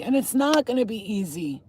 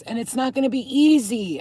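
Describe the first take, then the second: First: "not" leaned on, "easy" drawn into two beats; stress on not. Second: "easy" lifted and leaned on, then falling; stress on easy. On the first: Speaker repeating the warning to viewers, stress on "not". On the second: Speaker warning struggling viewers, stress on "easy". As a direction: lean hard on the word "easy". Repeats warning with shifted emphasis. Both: Real, not acted.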